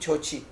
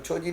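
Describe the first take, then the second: First: The second consonant is a 'ch' sound. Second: The second consonant is a soft 'j' sound. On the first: The speaker calls it right. "छोछी बोलना है इसको" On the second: The speaker calls it wrong. "छोजी नहीं"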